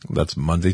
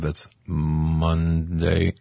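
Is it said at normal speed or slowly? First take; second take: normal speed; slowly. First: It is said at normal speed. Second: It is said slowly and drawn out.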